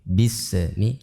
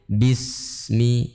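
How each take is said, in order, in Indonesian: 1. Bunyi s dilepas dengan pantulan. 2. Bunyi s mengalir dengan udara yang terus-menerus. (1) "dengan pantulan bismillah, ah, tidak boleh" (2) "Harus mengalir"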